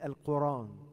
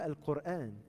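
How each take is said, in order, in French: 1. Les syllabes du milieu s'enchaînent, sans coup de glotte. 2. Un coup de glotte sépare les syllabes du milieu. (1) "ils disaient Al-Quran" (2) "ils disaient pas Al-Qur'an"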